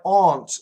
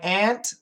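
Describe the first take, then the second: First: The word aunt has a different vowel from ant. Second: The word aunt sounds exactly like ant. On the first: Only some Americans say it this way. "sometimes you will hear some Americans say aunt" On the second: This is how most Americans say it. "So for most Americans, it's the same"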